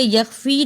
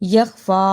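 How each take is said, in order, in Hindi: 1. शब्द 'ee' स्वर से खत्म होता है। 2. शब्द लंबे 'a' स्वर से खत्म होता है। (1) "इसे यख्फी नहीं पढ़ना" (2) "फा के ऊपर खड़ी अलिफ है उसको अदा करना है"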